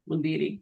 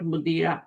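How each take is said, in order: First: The word ends in an i vowel. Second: The word ends in an a vowel. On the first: The speaker calls it right. "the noun after ma has e ending" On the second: The speaker calls it wrong. "Not मुदीरा"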